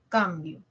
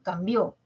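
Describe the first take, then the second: First: The stress is on the first syllable. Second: The stress is on the last syllable. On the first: I exchange something. "es grave, en la penúltima" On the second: He exchanged something. "puedo desplazar acento"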